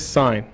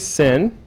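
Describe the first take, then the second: First: The word has a long vowel, like 'sign'. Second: The word has a short vowel, like 'sin'. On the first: The speaker calls it right. "Always say sine" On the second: The speaker calls it wrong. "never say sin"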